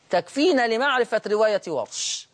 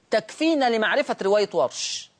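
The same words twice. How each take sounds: The two takes are said the same way.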